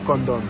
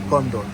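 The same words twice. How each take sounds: First: The words blur together, sounding like condom. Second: The same.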